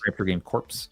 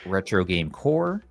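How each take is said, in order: First: The last word ends with a 'ps' sound. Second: The last word ends without a 'ps' sound. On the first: "C O R P S" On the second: "Why am I not pronouncing the corpse?"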